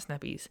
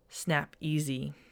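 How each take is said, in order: First: The name is said as 'Snappies'. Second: The name is said as 'Snap Easy'. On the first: The speaker calls it wrong. "It's not Snappies" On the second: The speaker calls it right. "It's Snap Easy. Like E-A-S-Y"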